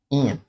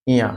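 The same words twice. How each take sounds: First: इय said as a clear "iya", not "ua"; correct pronunciation. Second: इया said as a clear "iya"; correct pronunciation. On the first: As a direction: say इय with a clean i-ya glide. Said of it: "इसे उआ नहीं बोलते हैं". (इय को साफ़ "इया" की तरह बोलें) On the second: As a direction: pronounce इया crisply, i then ya. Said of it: "उआ नहीं होता". (इया को स्पष्ट "इ-या" बोलें) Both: Shown as a demonstration.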